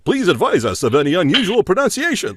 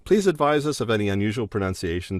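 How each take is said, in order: First: It is read in a stiff, formal announcer voice. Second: It is read in a relaxed, conversational way. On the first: The speaker sounds like they are selling something. The speaker calls it wrong. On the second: The speaker is simply talking to the listener. The speaker calls it right.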